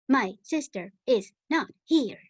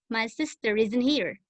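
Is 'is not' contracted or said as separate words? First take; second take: separate; contracted. First: The verb and 'not' are said as separate words. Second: The verb and 'not' are contracted together. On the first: It sounds like an answering machine message. The speaker calls it wrong. "va a sonar un poquito contestadora telefónica" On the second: This is the normal everyday way to say it. The speaker calls it right. "Así es como lo vamos a, a escuchar normalmente"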